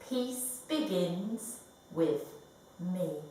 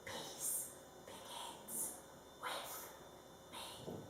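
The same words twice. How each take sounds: First: It is said in a normal speaking voice. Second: It is said in a whisper.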